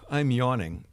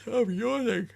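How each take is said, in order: First: Said in the usual way. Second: Mocking a viewer in a very high put-on voice; squeaky chat voice. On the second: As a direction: read the chat message in a silly squeaky voice. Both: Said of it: "He says".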